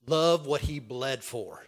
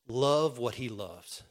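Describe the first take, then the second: First: Slow, deliberate, a bit fuller; slow solemn charge; slow emphasis. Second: Slow, deliberate charge; slow pastoral emphasis. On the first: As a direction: let it sink in slowly. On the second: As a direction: land it slowly. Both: Real, not acted. Preacher's key charge.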